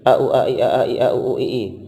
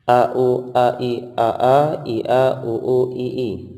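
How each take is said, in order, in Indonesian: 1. Urutan ini dibaca dengan tempo paling cepat. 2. Urutan ini dibaca dengan tempo lambat. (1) "Dipercepat lagi" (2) "Jadinya bacaan seperti ini"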